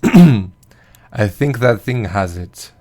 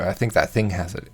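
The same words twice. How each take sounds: First: It is said in a put-on vampire voice. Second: It is said in the speaker's normal voice.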